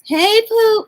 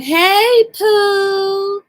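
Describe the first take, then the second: First: High, loud corrected hey Pooh; Foodie's greeting. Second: High, loud sing-song hey Pooh; Foodie's greeting. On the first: Fixing her imitation of the streamer's greeting, high. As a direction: land Pooh up high and bright. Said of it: "It's not like that. It's". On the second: Retelling how Foodie greets her squad, high. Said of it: "Yeah, I messed that up". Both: Retold or imitated.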